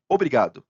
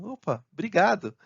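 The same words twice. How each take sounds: First: Loud, matter-of-fact one-word thanks; unsmiling thanks. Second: Bright lift in pitch, louder, grateful; smiling thanks. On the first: Replying to a helpful message, perfunctory and unsmiling. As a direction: thank them with no smile, just the word. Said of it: "Então você não deu um sorriso". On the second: Thanking a colleague who solved it, smiling, higher voice. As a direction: say thanks through a smile. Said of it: "aí você dá aquele sorriso". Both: Acted.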